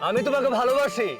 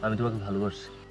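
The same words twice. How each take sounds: First: It is said loudly, for everyone to hear. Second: It is said quietly and plainly. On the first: The speaker calls it right. "একদম হাঁটু গেড়ে জোরে জোরে বলবে, যেন সবাই সবকিছু শুনতে পায়।" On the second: The speaker calls it wrong. "এইভাবে না।"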